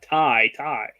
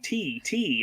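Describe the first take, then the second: First: It is pronounced like the word 'tie'. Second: It is pronounced like the word 'tee'. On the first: The speaker calls it right. "the T is pronounced like a tie" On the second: The speaker calls it wrong. "I'm looking at it going T T"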